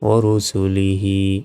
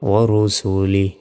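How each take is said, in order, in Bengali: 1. শব্দটি শেষ হয় একটি 'হি' অক্ষর দিয়ে। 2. শব্দটি শেষ হয় 'হি' অক্ষর ছাড়া।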